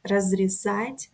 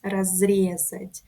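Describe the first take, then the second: First: Разрезать stressed on the last syllable, разрезАть; Разрезать as the imperfective, stress at the end. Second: Разрезать stressed on the second syllable, разрЕзать; разрезать as the perfective, stress early. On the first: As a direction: put the weight on the final а of Разрезать. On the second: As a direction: hit the е in разрезать, a bit slower. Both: Shown as a demonstration. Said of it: "but the different stress".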